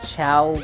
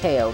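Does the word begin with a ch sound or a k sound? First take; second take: ch sound; k sound. First: It begins with a ch sound. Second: It begins with a k sound. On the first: This is how the games name it. "they call them Chow in the games" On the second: This is the speaker's personal choice. "I always call them K O"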